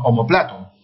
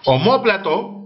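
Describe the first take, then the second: First: "omoplato" as o-mo-PLA-to; stress on PLA. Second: "Omóplato" drawn slowly as o-MÓ-pla-to; stress on MÓ. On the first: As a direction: move the weight of "omoplato" onto PLA. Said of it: "o si no". ("omoplato" con acento en PLA) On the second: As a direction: hit the second O of "Omóplato". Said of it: "con tilde en la O". ("Omóplato" con acento en MÓ) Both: Shown as a demonstration.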